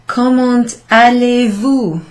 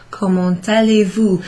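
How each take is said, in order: First: Comment allez-vous said slowly and carefully, louder; teacher modelling French slowly. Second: Said in the usual way. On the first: Shown as a demonstration. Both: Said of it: "Remember, if you've got the verb and the subject inverted".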